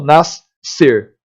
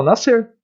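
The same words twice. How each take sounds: First: "nascer" partido em "nas-ser", com dois S; S duplo, pronúncia errada. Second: Said in the usual way. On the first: Shown as a demonstration. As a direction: separe e prolongue os dois sons de S em "nascer". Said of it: "Eu não falo nascer". (diga "nascer" como "nass... ser") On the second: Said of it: "eu falo nascer".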